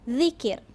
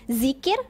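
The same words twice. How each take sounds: First: The first sound is made with the tongue out. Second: The first sound is a plain buzzing z. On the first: The speaker calls it right. "kita kena keluarkan lidah" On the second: The speaker calls it wrong. "kalau sebut zikir, salah"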